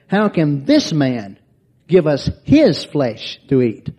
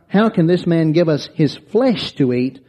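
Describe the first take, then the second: First: The stress falls on the words this man. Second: The stress falls on the word flesh. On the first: The speakers question who this man is. The speaker calls it right. "But the inflection is" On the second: The speakers question the idea of eating flesh. The speaker calls it wrong. "the inflection is not"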